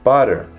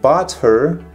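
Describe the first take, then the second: First: The words blend into one reduced word. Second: Each word is said separately and fully.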